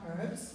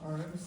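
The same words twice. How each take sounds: First: The word begins with an h sound. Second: The word begins with no h sound. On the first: "I thought there was an H on the beginning of that word" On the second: "as you say"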